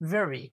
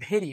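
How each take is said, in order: First: It begins with a buzzing v sound. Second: It begins with a breathy stop b sound. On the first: The speaker calls it right. "It has a vibration" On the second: The speaker calls it wrong. "It shouldn't be ভেরি"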